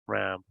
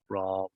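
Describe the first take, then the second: First: The vowel is short and clipped. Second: The vowel is long and drawn out. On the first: The speaker calls it wrong. "they look like they might say" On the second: The speaker calls it right. "sort of a long, drawn out sound"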